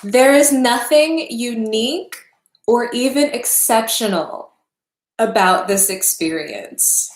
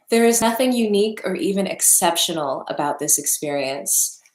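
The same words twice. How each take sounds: First: Slow, emphatic and a little louder; each phrase set down heavily, like it costs something to say; halting, heavy reading. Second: Said in the usual way. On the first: Real, not acted. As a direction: weigh every word like it hurts. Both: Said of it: "It's hard to say".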